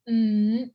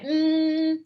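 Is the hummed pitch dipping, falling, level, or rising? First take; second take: rising; level. First: The pitch rises from middle to high. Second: The pitch stays high and level. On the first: "that's second" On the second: "that's first tone"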